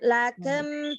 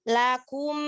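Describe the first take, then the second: First: The second vowel is an unrounded e sound. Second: The second vowel is a fully rounded u sound. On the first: The speaker calls it wrong. "Jangan lakem" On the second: The speaker calls it right. "Nah, gitu ya"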